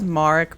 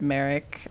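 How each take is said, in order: First: The name is said in the non-American way. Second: The name is said in an American way. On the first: This is how someone else says the name. "he says Marek" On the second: This is how the speaker has always said the name. "I've always just said Merrick"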